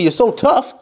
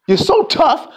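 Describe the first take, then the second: First: Sneering "You're so tough", stress on "tough"; mocking. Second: "You're so tough" higher, stress on "so"; mock him, lean on "so". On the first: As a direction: taunt him, lean on "tough". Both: Shown as a demonstration.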